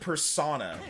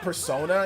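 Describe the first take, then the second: First: The ending rhymes with the word sauna. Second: The ending does not rhyme with sauna. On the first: This is how the other person said it. "he said persona, like a sauna" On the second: This is not how the other person said it. "not persona"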